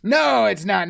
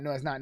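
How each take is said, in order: First: Said in the usual way. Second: Much softer, dying away; trailing off. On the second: Real, not acted. To co-host, repeating the denial, fading out. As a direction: let it fade to almost nothing.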